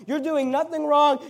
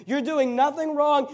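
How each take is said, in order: Both takes have the same delivery.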